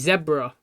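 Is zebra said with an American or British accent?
British. It is said with an English accent.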